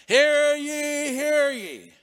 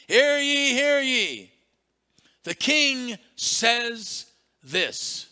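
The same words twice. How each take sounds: First: Loud, high crier shout; town crier call. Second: Loud, high slow proclamation; town crier call. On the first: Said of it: "with a voice loud and clear". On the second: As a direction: proclaim it to the village. Acting the town crier again. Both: Retold or imitated.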